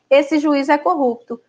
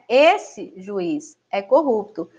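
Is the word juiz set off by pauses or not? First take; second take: no pauses; pauses. First: It is said straight through without pauses. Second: Pauses come before and after juiz. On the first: The judge is the one called corrupt. "Já na segunda situação" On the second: The judge is being addressed about someone else. "nessa primeira frase, né? ... Não é o juiz que é corrupto. Está se apontando alguém e se falando com o juiz"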